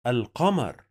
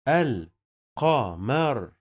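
First: Said in the usual way. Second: الْقَمَر broken slowly into al, qa, mar; very slow teaching pronunciation of القمر; syllable by syllable. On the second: Shown as a demonstration. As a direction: sound out القمر with gaps between syllables. Teacher sounds out word by syllables.

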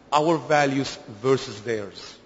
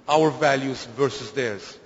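Both takes have the same delivery.

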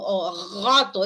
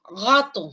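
First: Gato with the g pulled far back, drawn out slowly; uvular G in gato. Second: Said in the usual way. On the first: Shown as a demonstration. Phonetics teacher demonstrating a back g in gato. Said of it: "es una G más posterior". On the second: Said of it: "por ejemplo, en".

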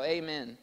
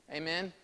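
First: "Amen." louder, with a firm falling tune. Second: "Amen?" with a rising, inviting tune; questioning Amen. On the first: Shown as a demonstration. Preacher prompting congregation to respond louder, firm falling "Amen.". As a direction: state "Amen." firmly and louder, dropping at the end. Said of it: "You can say it louder now". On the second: Real, not acted. Preacher checking the congregation agrees, "Amen?" rising as a question. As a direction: lift the end of "Amen?" as a question.

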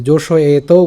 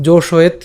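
First: জোশয়েতও drawn out with an open "to" ending; avoided vowel ending. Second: জোশয়েত ending on a bare t, no vowel; stopped final t. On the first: Teacher showing what not to say, জোশয়েতও with added vowel. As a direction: stretch জোশয়েতও onto a final o. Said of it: "জোশয়েতও উচ্চারণ করিনি". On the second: Teacher explaining the khanda-ta, জোশয়েত with stopped t. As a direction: cut জোশয়েত off at the t. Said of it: "জোশয়েত পর্যন্ত উচ্চারণ করেছি". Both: Shown as a demonstration.

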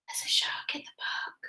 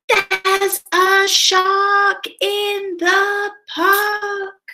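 First: Very soft, whispered repeat; hushed echo. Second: High, long-drawn storybook yell; yelling with all his might. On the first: Reader repeats the shark warning after the yell, hushed echo. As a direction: whisper the alarm under your breath. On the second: Timothy warns everyone about the shark, yelling with all his might. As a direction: stretch each word into a high cry. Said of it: "yells with all his might". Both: Acted.

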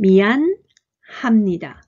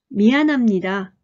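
First: 미안 합니다 broken into two slow parts, with a pause after 미안; slow, split syllables. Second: 미안합니다 said quickly, with the h of 합 almost silent; fast, h barely heard. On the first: Teacher reads 미안합니다 slowly in parts for learners. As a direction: spell out 미안 합니다 piece by piece. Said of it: "読んでみましょう". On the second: Teacher reads 미안합니다 at natural speed, h nearly dropped. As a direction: run 미안합니다 together and swallow the h. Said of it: "はって音がほとんど聞こえないですね". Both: Shown as a demonstration.

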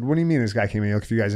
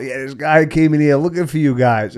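First: Rattled off fast in confusion; fast disbelief. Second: Put-on raised, hurried warning from the girls; caller's report. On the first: Retold or imitated. Narrator answering the caller, fast and baffled. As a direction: fire it back quickly, baffled. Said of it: "I said". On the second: Roommate calling the narrator, a raised voice relaying the warning. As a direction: pass on the news a bit higher and louder. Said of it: "I get a call".

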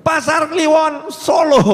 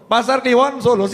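First: A drawn-out shout of the town name, slow and loud; called out answer. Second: Said in the usual way. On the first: Retold or imitated. Preacher voicing the crowd's reply, shouted slowly. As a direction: shout the place back like a crowd calling out. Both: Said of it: "muncul gitu ya".

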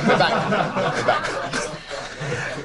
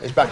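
First: Laughing through the words. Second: Said in the usual way. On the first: Real, not acted. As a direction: chuckle as you repeat it. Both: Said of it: "laugh returns".

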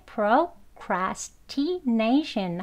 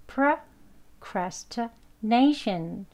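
First: Procrastination slowly, with full "proh" and "tee"; careful full pronunciation. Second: Procrastination slowly as pruh-cras-tuh-NAY-shun; weak schwa pronunciation. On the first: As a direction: say procrastination with every vowel unreduced. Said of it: "발음 기호 그 소리 그대로". (procrastination을 발음 기호대로 또박또박) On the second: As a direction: weaken "pro" and "ti" in procrastination to "uh". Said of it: "하고 약하게". (procrastination을 슈아로 약하게, 천천히) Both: Shown as a demonstration.

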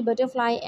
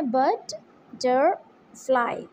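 First: Said in the usual way. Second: "butterfly" very slowly, in three beats; split into syllables. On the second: Shown as a demonstration. Teacher counts syllables for pupils, "butterfly" pulled apart into three. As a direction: break "butterfly" with long pauses between syllables. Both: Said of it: "it also has three syllables".

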